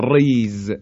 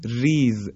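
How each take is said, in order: First: ریز with a thick, heavy R; wrong heavy R. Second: ریز with a thin, light R. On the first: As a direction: make the R of ریز full and heavy. (ریز با «ر» درشت) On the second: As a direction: keep the R of ریز light and fine. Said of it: "این نازک ادا کردن در این کلمات". (ریز با «ر» نازک) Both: Shown as a demonstration.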